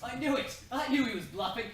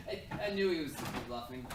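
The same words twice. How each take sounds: First: Loud, high, laughing triumph; gleeful gloat. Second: Said in the usual way. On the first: Acted. Prince gloating loudly that the hero was bluffing. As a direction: crow with delight at the win.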